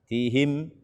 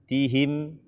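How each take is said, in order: Both takes have the same delivery.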